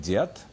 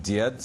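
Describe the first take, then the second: First: "diet" ending in a voiceless T; final devoicing. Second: "diet" ending in a voiced D, dyed; final voiced d. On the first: Lecturer showing final devoicing, "diet" with a t ending. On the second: Lecturer citing the underlying form, "diet" with voiced final d. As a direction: say "diet" with its last sound a d. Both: Shown as a demonstration. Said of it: "diet sounding like diet".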